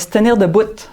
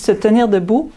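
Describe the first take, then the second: First: Debout ends with an audible T sound. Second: Debout ends in a vowel, with no final T.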